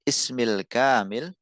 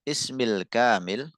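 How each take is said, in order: No difference in how they are said.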